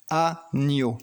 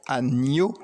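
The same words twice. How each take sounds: First: Said in the usual way. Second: Agneau with a rising tune, gn as ni; syllables spelled out for a child. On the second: Shown as a demonstration. Teacher to child, agneau with ni stressed. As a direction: say agneau slowly with the ni clear. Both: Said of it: "mettre la croix à l'endroit où tu entends le son".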